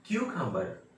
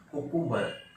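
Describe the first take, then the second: First: क्यूकम्बर opening on a clear kyoo; kyoo-kam-bar for क्यूकम्बर; correct pronunciation. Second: कुकुम्बर as ku-kum-bar, no y glide; plain ku at the start of कुकुम्बर; common mispronunciation. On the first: Teacher showing the correct word for cucumber, kyoo-kam-bar demonstration. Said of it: "ये है". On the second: Teacher quoting what children say, ku-kum-bar mispronunciation. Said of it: "ये कुकुम्बर नहीं है". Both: Shown as a demonstration.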